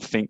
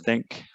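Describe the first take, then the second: First: The th sound is replaced by another sound. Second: The word begins with a clear th sound. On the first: The speaker calls it wrong. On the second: The speaker calls it right.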